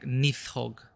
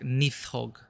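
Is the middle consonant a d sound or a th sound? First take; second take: th sound; th sound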